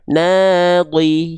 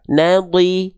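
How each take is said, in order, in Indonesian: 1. Vokal pertama ditahan dua ketuk. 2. Vokal pertama ditahan satu ketuk. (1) "Kalau dua ayunan" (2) "kalau satu ayunan"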